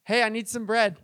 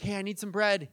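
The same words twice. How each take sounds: First: Louder, pestering call at the door; insistent repeat request. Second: Said in the usual way. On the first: Acted. Friend knocking a second time, insistent and louder. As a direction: knock and ask more pushily. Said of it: "And he knocks again". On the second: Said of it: "you go to a friend's house".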